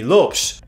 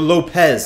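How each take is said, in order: First: The name is said with Portuguese pronunciation. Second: The name is said with Spanish pronunciation.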